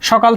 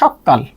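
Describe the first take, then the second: First: The k sound is short and single. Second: The k sound is held long and doubled. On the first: It refers to the morning plainly. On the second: It stresses the earliness of the morning.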